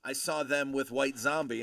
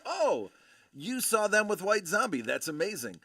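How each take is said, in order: First: Said in the usual way. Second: High, loud gush that settles at the end; imitating an excited fellow fan; retold amazement. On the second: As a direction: act out her thrilled, impressed echo. Her amazed echo of his remark.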